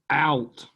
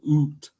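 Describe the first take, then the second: First: The vowel is said as a gliding 'ow' sound. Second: The vowel is said as a long 'oo' sound. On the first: This is how the word is said today. "that ah sound like we have today" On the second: This is how the word was said before the vowel shift. "it has a ooh sound"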